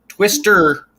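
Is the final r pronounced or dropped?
pronounced. It is said in a Californian accent, with final r.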